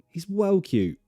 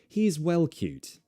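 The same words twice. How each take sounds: First: The T is a glottal stop, L is softened. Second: The T and L are clearly fully pronounced. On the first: It sounds casual and informal. "I would change the L to an L and the T to a glottal T" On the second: It sounds very well spoken. "pronounce them the true L's, true T's"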